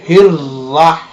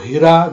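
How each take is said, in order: First: The r sound is doubled and held. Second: The r sound is short and single. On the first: The speaker calls it right. "ही के बाद आपने रा को टू time पढ़ना है" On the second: The speaker calls it wrong. "हिरा जो है वो नहीं है"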